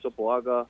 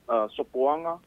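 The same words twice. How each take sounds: First: The g sound in the name is pronounced. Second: The g sound in the name is silent. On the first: The speaker calls it wrong. "even though you guys say Sopoanga. You pronounced the name wrong" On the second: The speaker calls it right. "The G's are silent"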